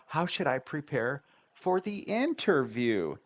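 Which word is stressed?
prepare. The stress falls on the word prepare.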